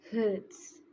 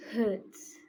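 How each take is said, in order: Both takes have the same delivery.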